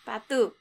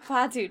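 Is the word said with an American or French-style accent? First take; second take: French-style; American. First: It is said with an attempted French accent. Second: It is said with a plain American accent. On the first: "Put a French accent to it" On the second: "I'm going to say very, very American"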